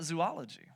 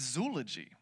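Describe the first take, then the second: First: Zoology said "zoo-OL-ogy"; wrong pronunciation. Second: Zoology said "ZOO-luh-jee"; corrected pronunciation. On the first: Preacher rejecting the usual way, zoology as "zoo-OL-ogy". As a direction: give zoology four syllables, zoo-OL-o-gy. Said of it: "The way you say it is not". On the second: Preacher revealing the correction, zoology as "ZOO-luh-jee". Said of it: "The way you say it is". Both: Shown as a demonstration.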